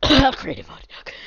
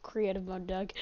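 First: Slow, loud words through a cough; fake-cough remark. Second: Said in the usual way. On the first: Coughed repeat of the aside.

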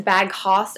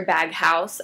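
First: HOUSE said as "hoss"; "House" with an open "aw" vowel; alternative pronunciation. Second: HOUSE said like the word for a home; "House" with an "ow" vowel; preferred pronunciation. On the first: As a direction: say Bag House like "bag hoss", rhyming with boss. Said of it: "I'm not sure if it's". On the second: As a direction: say "House" to rhyme with mouse. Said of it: "I think it's Bag House". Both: Shown as a demonstration.

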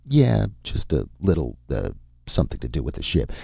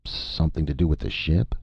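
First: Quick, offhand evasive answer; evasive brush-off. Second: Polite inquiry. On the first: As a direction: brush it off and rush the end. Vern brushes off the Major's question. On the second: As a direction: ask politely, lifting at the end. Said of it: "The Major inquired politely". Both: A narrator's reading.

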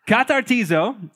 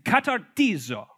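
First: Katartizo said again, laughing, in a different way; corrected katartizo. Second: Katartizo said with a mock Italian lilt; Italian-sounding katartizo. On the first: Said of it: "I don't think that's how they say it". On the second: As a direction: roll katartizo out like an Italian word. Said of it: "That was more Italian". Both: Shown as a demonstration.

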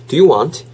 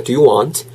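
First: "Do you want" slowly, word by word; separated words. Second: "do you want" run together as one chunk; linked in one go. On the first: ("Do you want" 한 단어씩 천천히) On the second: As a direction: link "do you want" smoothly. ("do you want" 한 번에 이어서) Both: Shown as a demonstration. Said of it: "한 번에 가진 연습".

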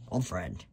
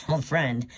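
First: Said in the usual way. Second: Scornful laugh. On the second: Acted. Laughs at the old friend claim.

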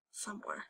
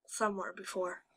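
First: "Somewhere" repeated far softer, almost gone; barely audible echo. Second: "somewhere" said softly, trailing off; quieter. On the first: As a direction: echo "Somewhere" under your breath. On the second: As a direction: murmur "somewhere" as you recall it. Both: Shown as a demonstration.

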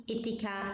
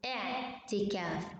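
First: إتكا started with a plain short i, no ain; wrong pronunciation without ain. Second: اعتكاف opened with a clear throat ain, slowly; correct ain pronunciation. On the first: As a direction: drop the ain and say إتكا lightly. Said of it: "ما تحكيش إتي". (نطق خاطئ إتكا بدون عين) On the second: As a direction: press the ain at the start of اعتكاف. (نطق صحيح بحرف العين) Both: Shown as a demonstration.

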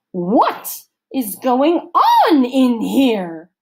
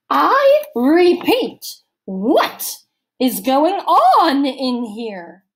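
First: Loud, slow, higher demand in a counselor's voice. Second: Slow, loud, much higher repeat; repeated demand. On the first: Missus Periwinkle bursts into the cabin, loud slow demand. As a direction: demand an answer slowly and loudly. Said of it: "she demanded". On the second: Missus Periwinkle repeating her question to the girls, slow and loud. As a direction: drag each word out in anger. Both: A narrator's reading.

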